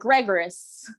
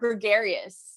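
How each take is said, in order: First: The word is pronounced as misread from spelling. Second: The word has its standard pronunciation. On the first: The speaker calls it wrong. "my initial thing is to be like" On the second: The speaker calls it right. "You said it right"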